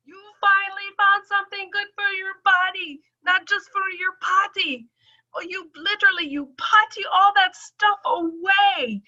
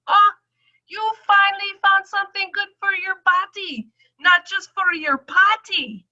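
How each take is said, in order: First: High teasing doctor voice; high-pitched doctor. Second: High, loud doctor's delight; high-pitched doctor. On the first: Doctor joking about her potty, high-pitched. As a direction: tease like the delighted doctor. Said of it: "that's when she said". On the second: Doctor delighted by her results, high and loud. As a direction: squeal it like the thrilled doctor. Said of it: "she goes". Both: Retold or imitated.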